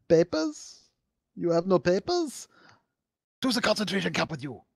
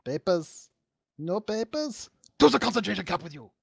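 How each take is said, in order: First: High, mock German guard accent; quoting Soviet Womble. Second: High, fast mock German officer bark; German accent. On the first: Retelling a YouTuber's bit, mock German guard. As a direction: bark it like a cartoon guard. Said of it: "I was just quoting, uh, a Soviet Womble". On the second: Mock Nazi guard at friends, German accent. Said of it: "I don't think I have a good German accent".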